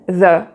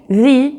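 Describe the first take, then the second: First: The word is pronounced like 'thuh'. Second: The word is pronounced like 'thee'. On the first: A consonant sound follows. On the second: A vowel sound follows.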